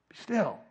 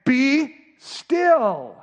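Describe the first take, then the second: First: Soft follow-up, much gentler; quiet reassurance; comfort. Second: Loud, high, drawn-out command; commanding rebuke; correction. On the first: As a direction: let the command soften into comfort. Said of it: "before it's a comfort". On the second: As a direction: order it firmly, holding each word. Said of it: "It's a correction". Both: Acted.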